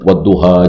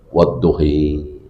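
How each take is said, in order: First: The final vowel is an open a. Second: The final vowel is tilted toward i.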